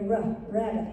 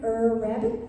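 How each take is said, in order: First: The letter sound is a short 'ruh'. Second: The letter sound is a drawn-out 'er'. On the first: The speaker calls it right. "We hear rough rabbit" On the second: The speaker calls it wrong. "do we hear er rabbit? No"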